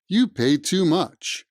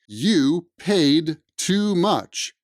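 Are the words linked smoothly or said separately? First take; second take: linked; separate. First: The words are reduced and run smoothly together. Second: Each word is said separately, without linking. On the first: The speaker calls it right. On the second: The speaker calls it wrong.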